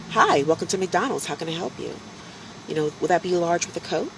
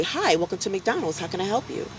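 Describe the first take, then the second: First: Light, polite recorded-greeting lilt; imitating his own pre-recorded drive-thru voice. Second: Light, polite recorded-greeting lilt; imitating the live greeting in the recorded style; drive-thru greeting voice. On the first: At the drive-thru, he greets customers in a polite recorded voice. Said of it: "that's how I spoke". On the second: Going live at the drive-thru, he greets in a polite recorded voice. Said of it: "I'd go live and say".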